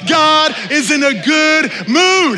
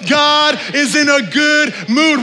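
First: It is said with strong, emphatic energy. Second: It is said with ordinary energy.

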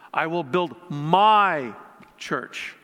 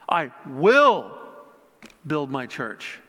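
First: The word 'my' is stressed. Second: The word 'will' is stressed. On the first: "putting an emphasis on each word" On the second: "putting an emphasis on each word"

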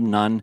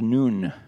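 First: The name has a short vowel, like 'nun'. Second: The name has a long vowel, like 'noon'. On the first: The speaker calls it wrong. "I have always said the son of Nun" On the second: The speaker calls it right. "it actually should be pronounced Noon. It's more of a Hebrew pronunciation"

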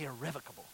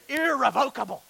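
First: The word is said the standard, educated way. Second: The word is said in a regional, rural way. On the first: This is how educated people say it. "I don't say irrevocable" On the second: This is how people back home say it. "I say irrevocable, right? Because I'm not educated that way"

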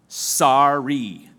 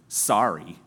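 First: It sounds sincere and meant. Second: It sounds grudging and insincere.

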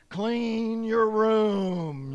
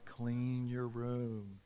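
First: It is said loudly and forcefully. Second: It is said quietly and gently.

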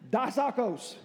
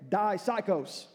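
First: The word is pronounced like English 'psycho'. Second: The word is pronounced like English 'psycho'.

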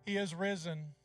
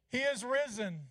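First: It is said at a quieter volume. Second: It is said at a louder volume.

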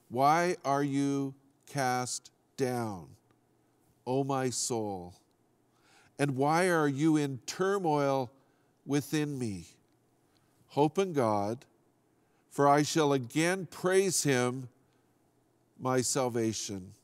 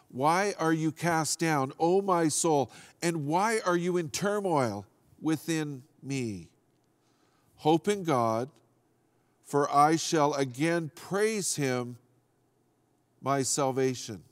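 First: It is read at a slower pace. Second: It is read at a faster pace.

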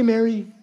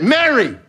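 First: The name is said calmly, without force. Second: The name is said excitedly, with force. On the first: A casual, ordinary greeting. The speaker calls it wrong. "He didn't say, hey, Mary" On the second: An urgent call that wakes the listener up. The speaker calls it right. "He said, Mary, exclamation point"

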